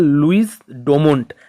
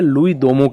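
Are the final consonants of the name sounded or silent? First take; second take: sounded; silent. First: The final s and t sounds are pronounced. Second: The final s and t sounds are silent. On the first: This is the name as it is written. "इनका जो नाम है ओरिजिनली है" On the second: This is how the name is actually pronounced. "इसको हम प्रोनाउंस करते हैं लुई दोमो की तरह"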